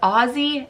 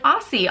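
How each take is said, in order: First: The middle consonant is a buzzing z sound. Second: The middle consonant is a hissing s sound. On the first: The speaker calls it right. "which is the way you should say it, O Z Z Y" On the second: The speaker calls it wrong. "I was saying it like an American"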